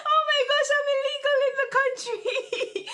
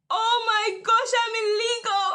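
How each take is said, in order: First: High, loud, laughing through the words; laughing panic. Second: Much higher and louder, half-crying wail; panicked laughing cry. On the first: Retelling her visa panic to viewers, laughing high and loud. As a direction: giggle out the panic, much louder. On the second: Telling her viewers how she panicked about the visa, in a high laughing wail. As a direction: wail it out in comic panic, voice cracking. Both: Retold or imitated.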